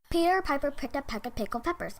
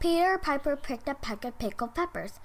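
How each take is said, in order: First: It is said as fast as possible. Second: It is said at a medium fast speed.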